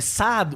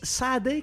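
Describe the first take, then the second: First: The name is said with French pronunciation. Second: The name is said with English pronunciation.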